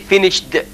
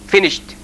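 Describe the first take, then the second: First: The ending is said as a separate 'id' syllable. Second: The ending is said as a short 't' sound. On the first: The speaker calls it wrong. "We don't say finished" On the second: The speaker calls it right. "we pronounce it t"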